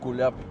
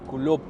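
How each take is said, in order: First: The name is said with a ya-like vowel. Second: The name is said with a plain o-like vowel. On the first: This is how the name is said in Russian. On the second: This is the local form of the name.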